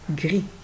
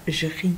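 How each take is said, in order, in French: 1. Le mot commence par un son g dur. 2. Le mot commence par un son doux zh. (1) "C'est gris" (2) "on ne peut pas faire jri, c'est un peu bizarre"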